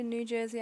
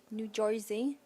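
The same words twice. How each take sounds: First: Said in the usual way. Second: "New Jersey" as "New Joizy"; New Jersey accent. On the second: Shown as a demonstration. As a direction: say "New Jersey" in thick Jersey twang, questioning. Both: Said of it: "Can you do a New Jersey accent".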